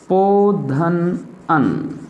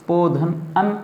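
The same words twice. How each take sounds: First: Each syllable drawn out very slowly for the class to write; slow dictation. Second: Said in the usual way. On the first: Shown as a demonstration. Teacher dictating the answer to children, very slow. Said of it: "इसका संधि विच्छेद होगा बच्चों". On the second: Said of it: "व में स्वर है अ और न".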